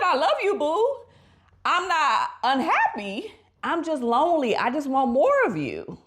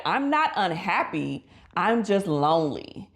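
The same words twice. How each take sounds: First: Wife's loving plea. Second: Said in the usual way. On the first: Retold or imitated. Wife telling her husband she is lonely, high and pleading. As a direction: plead sweetly in a raised voice. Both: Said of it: "She said".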